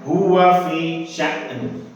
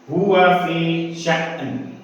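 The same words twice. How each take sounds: Both takes have the same delivery.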